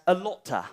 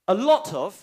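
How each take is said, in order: First: The words blend together in reduced form. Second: The words are said in full, separately.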